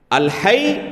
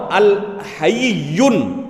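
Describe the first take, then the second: First: الحی as two syllables, al-hayy, on a doubled y; pronunciation of الحی. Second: الحیون drawn out as al-ha-yiy-yun; pronunciation of الحیون. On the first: Teacher contrasting two divine names, careful pronunciation of الحی. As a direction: say الحی as al-HAYY, no -yun ending. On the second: Teacher contrasting two divine names, careful pronunciation of الحیون. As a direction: say الحیون slowly, with a long yiy and a -yun ending. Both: Shown as a demonstration. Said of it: "دونوں میں فرق ہے".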